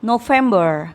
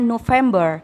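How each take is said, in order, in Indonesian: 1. Kata ini diucapkan dengan lafal Inggris. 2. Kata ini diucapkan dengan lafal Inggris.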